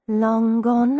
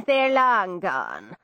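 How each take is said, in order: First: Muttered. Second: Irish lilt. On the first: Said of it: "I muttered". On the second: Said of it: "Irish constable". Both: A narrator's reading.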